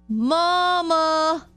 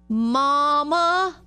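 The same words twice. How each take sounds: The two takes are said the same way.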